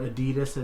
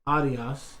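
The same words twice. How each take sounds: First: It is pronounced the common American way. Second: It is pronounced the original German way. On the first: This is how Americans say the name. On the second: This is the company's own pronunciation.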